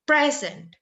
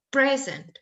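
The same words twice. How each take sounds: First: The stress is on the first syllable. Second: The stress is on the first syllable.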